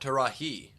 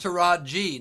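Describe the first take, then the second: First: The middle consonant is an H sound. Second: The middle consonant is a J sound. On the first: The speaker calls it wrong. "not Tarahi" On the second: The speaker calls it right. "it's because it's Taraji"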